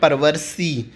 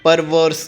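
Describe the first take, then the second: First: The word ends with an extra 'ee' vowel. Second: The word ends on the 's' sound. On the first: The speaker calls it wrong. "आपको ऐसे नहीं पढ़ना है" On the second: The speaker calls it right. "परवर्स is the pronunciation"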